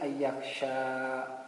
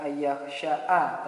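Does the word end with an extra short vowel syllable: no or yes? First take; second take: no; yes. First: The word ends on the long vowel, nothing added. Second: The word ends with an added short 'a' syllable. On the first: The speaker calls it right. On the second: The speaker calls it wrong.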